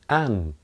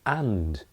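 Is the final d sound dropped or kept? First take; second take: dropped; kept. First: The word is shortened and its d is dropped. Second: The word is said in full with its d. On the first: "At most they say an or un" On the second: "You will hardly ever hear anyone say and"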